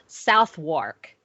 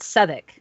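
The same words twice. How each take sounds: First: It is said with full syllables, south and wark. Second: It is said in a shortened form, middle sounds dropped. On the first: The visitor's reading of the name. The speaker calls it wrong. "it's spelled Southwark" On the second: The locals' way of saying the name. The speaker calls it right. "but they pronounce it Southwark"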